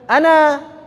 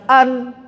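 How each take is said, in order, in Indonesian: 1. Vokal akhirnya panjang. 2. Vokal akhirnya pendek atau dihilangkan. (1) "kalau bacanya sendirian" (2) "nggak dibaca an"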